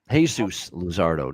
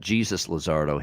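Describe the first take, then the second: First: The first name begins with an H sound. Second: The first name begins with a J sound. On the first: The speaker calls it right. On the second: The speaker calls it wrong.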